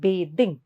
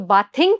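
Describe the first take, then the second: First: The first vowel sounds like in 'bathe'. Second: The first vowel sounds like in 'bath'. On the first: The speaker calls it right. "But it is to be pronounced as बेदिंग" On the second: The speaker calls it wrong. "बाथ को ING add करेंगे तो बाथिंग कहलाएगा"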